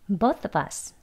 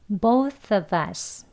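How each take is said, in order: First: The phrase is said fast, with 'of' swallowed. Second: The phrase is said at a moderate, careful speed.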